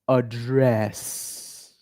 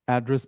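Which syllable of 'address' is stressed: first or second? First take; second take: second; first. First: The stress is on the second syllable. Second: The stress is on the first syllable. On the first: It is an action, like delivering a speech. "So the stress is on the second part of the word" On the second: It is a noun meaning a house number. "this same word address"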